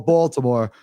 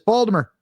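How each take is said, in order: First: It is said in a general American accent. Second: It is said in a local Baltimore accent.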